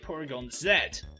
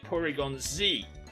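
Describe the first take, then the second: First: The final letter is said the British way, zed. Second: The final letter is said the American way, zee.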